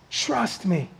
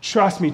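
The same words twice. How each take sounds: First: Trust me, much softer and hushed; soft plea. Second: Said in the usual way. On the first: Acted. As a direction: lean in close and almost breathe it. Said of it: "intimate plea, far softer". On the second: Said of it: "repeated plea".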